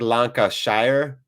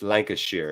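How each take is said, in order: First: It is pronounced letter by letter, as spelled. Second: It is pronounced the common, everyday way. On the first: "It looks like Lancashire" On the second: "is how you, I think most people would pronounce it"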